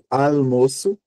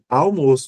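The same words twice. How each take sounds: First: The first syllable ends in a clear L sound. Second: The first syllable ends in a vowel-like U sound. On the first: "e aí o som seria outro, seria de um L" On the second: "o A é muito mais forte do que o U"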